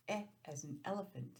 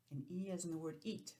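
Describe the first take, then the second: First: "E" as the short e of elephant; short E sound. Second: "E" as the long ee of eat; long E sound. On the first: Teacher showing kids the short E. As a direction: say "E" as /ɛ/, short and open. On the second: Teacher showing kids the long E. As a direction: say "E" as /i/, long and closed. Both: Shown as a demonstration. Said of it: "E and E".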